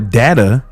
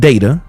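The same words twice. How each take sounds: First: The word is pronounced in a pretentious-sounding way. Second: The word is pronounced the ordinary, everyday way.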